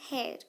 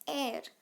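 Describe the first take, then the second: First: The word starts with an h sound. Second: The word starts with a vowel sound. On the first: The speaker calls it wrong. "this is not pronounced as hair" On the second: The speaker calls it right. "it is pronounced as air"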